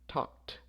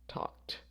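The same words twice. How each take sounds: No difference in how they are said.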